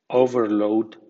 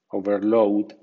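First: The stress is on the first syllable. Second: The stress is on the second syllable. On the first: It is used as a noun. "con acento fuerte ... nombre" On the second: It is used as a verb. "con acento medio ... verbo"

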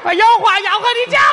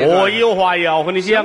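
First: It is said in a female voice. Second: It is said in a male voice.

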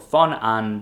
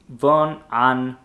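First: The name begins with an F sound. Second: The name begins with a V sound.

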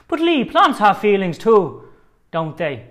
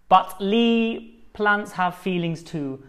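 First: It is said in a put-on Irish accent. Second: It is said in the speaker's normal accent.

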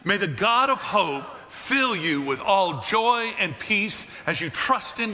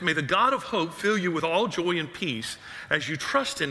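First: It is read with very high, hyped energy. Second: It is read at a calm, ordinary energy.

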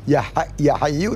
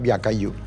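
First: The second word starts with an h sound. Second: The second word starts with a k sound. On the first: The speaker calls it right. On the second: The speaker calls it wrong. "dia mengucap ya kayyu"

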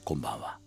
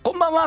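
First: It is said in a slightly hoarse voice. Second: It is said in a high voice.

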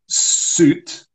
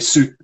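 First: The final T is clearly pronounced. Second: The final T becomes a glottal stop.

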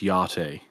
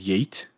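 First: It is said in a posh way. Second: It is said in a plain, ordinary way.

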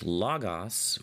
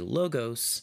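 First: The O vowels are short, like 'lahgahs'. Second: The O vowels are long, like 'loh-gohs'. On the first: It is meant for people who studied Greek. "the O's are short" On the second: It is meant for people unfamiliar with Greek. "we typically say Logos in other circumstances"

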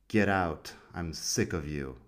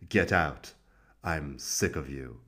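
First: It is said in a neutral voice. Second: It is said in an angry voice.

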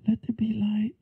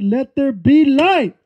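First: It is said lightly, without much force. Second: It is said strongly, with commanding force. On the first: It is a mere offhand statement. The speaker calls it wrong. "he didn't say that with just" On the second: It is a commanding declaration of authority. The speaker calls it right. "He said it from a place of dominion"

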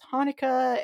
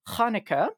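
First: It begins with a plain English h sound. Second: It begins with a rough throaty fricative sound. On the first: "I also understand it if you pronounce it as Hanukkah" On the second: "in Hebrew, it is pronounced Hanukkah"

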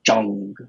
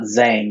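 First: The name begins with a J-like sound. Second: The name begins with a plain Z sound. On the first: The speaker calls it right. "it's actually like a ringing J sound" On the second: The speaker calls it wrong. "it's not Zhang"

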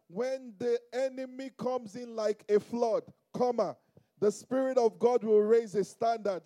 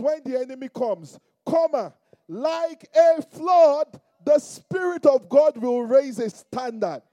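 First: The pause comes after "like a flood". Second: The pause comes before "like a flood".

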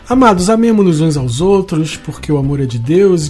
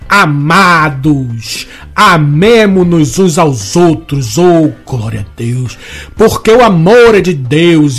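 First: It is read in a plain, calm reading style. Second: It is read in a fervent Pentecostal preaching style.

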